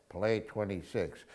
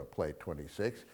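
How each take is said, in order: First: Said in the usual way. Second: Softer, hushed wrong take of the line; mock whisper. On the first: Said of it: "He says". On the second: Shown as a demonstration. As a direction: breathe it like a secret, the way Rick does not. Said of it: "Now, he doesn't whisper".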